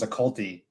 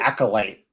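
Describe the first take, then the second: First: The word ends with a 'tee' sound. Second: The word ends with a 'light' sound. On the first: The speaker calls it wrong. "I always thought the word was occulty" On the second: The speaker calls it right. "word for it"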